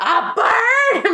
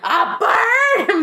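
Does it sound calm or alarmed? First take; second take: alarmed; alarmed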